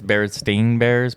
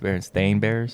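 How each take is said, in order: First: The name's second part sounds like 'steen'. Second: The name's second part sounds like 'stain'. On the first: This is the commonly remembered version. The speaker calls it wrong. "everybody thinks it's" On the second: This is the actual name. The speaker calls it right. "but it's"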